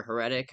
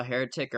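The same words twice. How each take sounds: First: "Heretic" as huh-RET-ick; stress on second syllable. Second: "Heretic" as HAIR-uh-tick; stress on first syllable. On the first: Podcaster offering another reading of the title says "Heretic" as huh-RET-ick. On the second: Podcaster unsure of the film's title says "Heretic" as HAIR-uh-tick. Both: Shown as a demonstration. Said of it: "however it's pronounced".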